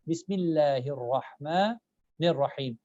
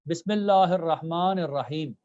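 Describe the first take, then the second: First: Only the R sound is pronounced heavy. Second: Every letter is pronounced heavy and thick. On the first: The speaker calls it right. "The only letter which you need to focus and pronounce it as A is the letter Ra" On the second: The speaker calls it wrong. "they're making all the letters heavy"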